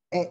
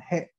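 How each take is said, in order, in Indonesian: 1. Suku kata itu langsung diawali dengan vokal. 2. Suku kata itu diawali dengan bunyi h. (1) "sebagai partikel nantinya atau to be-nya, dia akan dibaca dengan e" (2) "sebagai huruf hiragana ini dibaca dengan he"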